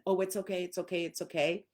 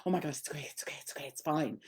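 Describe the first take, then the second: First: Ordinary "it's okay" reassurance; just pat and reassure; plain soothing. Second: Mock panicked, dropping to a whisper; panicked reassurance. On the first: Owner petting a stressed dog, plain soothing. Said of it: "start petting them and". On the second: Owner panicking over a scared dog, whispering "it's okay". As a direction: fret over the dog breathlessly. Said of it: "all panicked going". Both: Shown as a demonstration.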